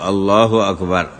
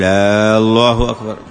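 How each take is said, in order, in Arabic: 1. الحركة الأولى في الله قصيرة. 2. الحركة الأولى في الله ممدودة. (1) "فيقول الله أكبر" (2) "وأن لا يمد الهمزة الأولى فيصير استفهام"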